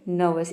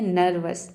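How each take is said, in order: First: The R sound is silent in the first syllable. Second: The R sound is pronounced in the first syllable. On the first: The speaker calls it right. "ये होता है नर्वस। ... ई आर silent है" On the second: The speaker calls it wrong. "ये नर्वस नहीं होता है, कई student इसको बोल देते हैं नर्वस"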